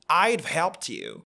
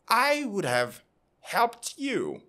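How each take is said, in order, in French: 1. Would et have se réduisent à I'd've. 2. Would et have se disent en entier. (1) "deux formes contractées. I'd et le v pour le have" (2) "la phrase correcte sera"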